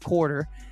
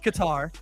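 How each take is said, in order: First: The name sounds like the English word 'quarter'. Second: The name does not sound like 'quarter'. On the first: The speaker calls it wrong. "I kept calling it Quarter" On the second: The speaker calls it right. "It's Qatar"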